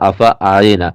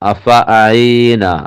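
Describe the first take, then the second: First: The vowel after the ain is short. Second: The vowel after the ain is long. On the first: The speaker calls it wrong. "അവിടെ മാറിപ്പോകുക" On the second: The speaker calls it right. "ഈ ആണ് നീട്ടേണ്ടത്"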